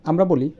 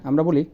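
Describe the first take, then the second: No difference in how they are said.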